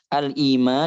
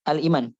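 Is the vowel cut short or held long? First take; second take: held long; cut short. First: The long vowel is held at full length. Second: The long vowel is cut short. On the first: The speaker calls it right. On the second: The speaker calls it wrong.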